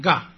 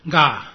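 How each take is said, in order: First: 嘎 with its vowel cut short; brief, abrupt 嘎; short syllable. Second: Said in the usual way. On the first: Shown as a demonstration. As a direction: stop the vowel of 嘎 quickly. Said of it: "它的音呢缩短变成短促音". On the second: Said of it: "第十七念".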